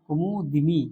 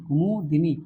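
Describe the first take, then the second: First: An 'i' vowel is heard between d and n. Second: The same.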